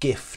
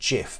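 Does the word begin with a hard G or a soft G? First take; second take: hard G; soft G. First: It begins with a hard G sound. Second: It begins with a soft G sound. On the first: The speaker calls it right. "I believe it should be GIF" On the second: The speaker calls it wrong. "not GIF"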